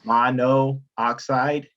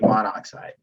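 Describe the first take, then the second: First: The final vowel of the prefix is pronounced. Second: The final vowel of the prefix is dropped. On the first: The speaker calls it wrong. "you don't say" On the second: The speaker calls it right. "we say"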